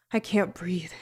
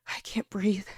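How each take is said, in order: First: Said in the usual way. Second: Airless whispered panic; barely any breath left to speak; whispered while choking on pulp; choked whisper. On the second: Acted.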